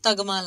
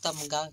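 First: The m sound comes after the g sound. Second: The m sound comes before the g sound. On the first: The speaker calls it wrong. "असी बोलने नू तगमा लग रहे हैं" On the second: The speaker calls it right. "तमगा ही बोलिया जाना चाहिए"

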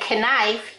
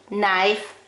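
First: The k at the start is pronounced. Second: The k at the start is silent. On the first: The speaker calls it wrong. "You don't say knife" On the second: The speaker calls it right. "You say"

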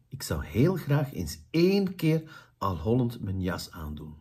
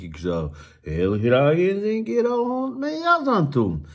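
First: The melody rises and falls in a natural way. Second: The melody swings in an exaggerated, over-the-top way. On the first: The speaker calls it right. "Hier gaan we een juiste intonatie doen" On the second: The speaker calls it wrong. "dat is een beetje overdreven"

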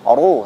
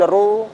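First: The r sound is heavy and thick. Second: The r sound is thin and light. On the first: The speaker calls it right. "ru tafkhim ya" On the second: The speaker calls it wrong. "bukan ru"

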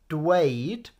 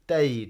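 First: The word begins with a d then w sound. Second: The word begins with a plain d sound. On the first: "So to say is dweud" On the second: "you'll often hear people like these two just saying deud"

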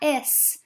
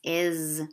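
First: The word ends with an s sound. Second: The word ends with a z sound. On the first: The speaker calls it wrong. "the s at the end doesn't make a s sound. It's not is" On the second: The speaker calls it right. "it's is"

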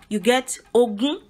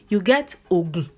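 First: Mid tone on the first syllable, high on the second. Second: Low tone on the first syllable, low on the second. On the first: "If you put nothing on the O and you which would be re, ... and you put mi on the U" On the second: "If you put do on the O and you put do on the U"

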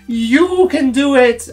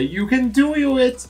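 First: The stress is on you. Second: The stress is on do.

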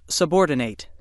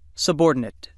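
First: The last syllable is a full 'nate', rhyming with 'late'. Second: The last syllable is a weak 'nit', with a reduced vowel. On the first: It is a verb: to put something in a lower rank. "When it's used as a verb, it's pronounced subordinate" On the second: It is an adjective or noun: lower in rank, or a person of lower rank. "When it's used as an adjective or a noun, it's pronounced subordinate"

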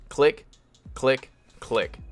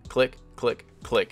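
First: The clicks are spaced more slowly apart. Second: The clicks are spaced more quickly together. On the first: The pitcher's motion to the plate takes longer. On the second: The pitcher's motion to the plate is quicker.

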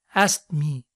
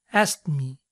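Both takes have the same delivery.

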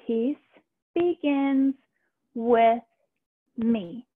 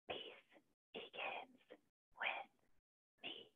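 First: It is said in a normal voice. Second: It is said in a whisper.

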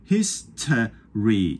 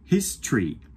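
First: The middle vowel is pronounced. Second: The middle vowel is dropped. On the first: "じゃなくて" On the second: "母音がなくなったり"

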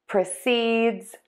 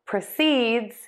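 First: The stress falls on the second syllable. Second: The stress falls on the second syllable.

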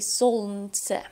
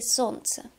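First: The L sound is clearly pronounced. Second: The L sound is left out. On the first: The speaker calls it wrong. "We do not say солнце" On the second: The speaker calls it right. "the letter L is not pronounced. We say солнце"

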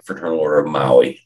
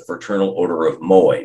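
First: The last word is said like 'Maui'. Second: The last word is said like 'Moai'. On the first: The speaker calls it wrong. "not the Fraternal Order of Maui. That's how so many of us pronounce it" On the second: The speaker calls it right. "It's the Fraternal Order of Moai"

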